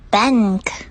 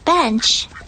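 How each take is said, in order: First: The word ends without a ch sound. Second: The word ends with a ch sound. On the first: The speaker calls it wrong. "It doesn't make any sense to say" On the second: The speaker calls it right. "The word bench has a ch sound"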